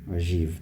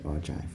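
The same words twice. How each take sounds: First: It is said French-style with a soft g. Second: It is said in an anglicised English way. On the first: "in French, they call it, it's an ogive. The G is quite soft" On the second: "when we Englishise this, we say ogive"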